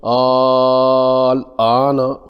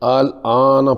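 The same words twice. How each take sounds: First: The second hamza becomes a long a vowel. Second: The second hamza is pronounced softly, weakened. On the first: "अबदाल के लिए अलिफ से बदल देंगे" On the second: "तस्हील से"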